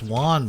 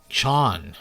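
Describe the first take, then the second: First: The name begins with a 'w' sound. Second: The name begins with a 'ch' sound. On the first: The speaker calls it wrong. "I want to say it's Juan, but it's not" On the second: The speaker calls it right. "It's more like Chan"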